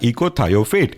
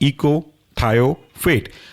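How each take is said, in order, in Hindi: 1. शब्द बिना रुकावट के सहजता से बोला जाता है। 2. शब्द के हिस्सों के बीच रुकावट के साथ बोला जाता है। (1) "साथ में बोलेंगे तो कहलाएगा" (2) "तोड़ेंगे तो आपको आराम से बनेगा"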